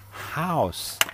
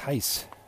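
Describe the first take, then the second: First: The vowel sounds standard, like house. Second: The vowel sounds Irish, like heist. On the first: "And then I realize it's house" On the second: "I keep hearing this Irish guy talking about"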